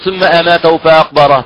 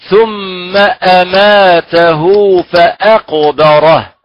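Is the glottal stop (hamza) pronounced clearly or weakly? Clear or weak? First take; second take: weak; clear. First: The glottal stop is weakened or barely pronounced. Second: The glottal stop is pronounced fully from the throat. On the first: The speaker calls it wrong. "لا نقول" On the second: The speaker calls it right. "فنقول مثلا"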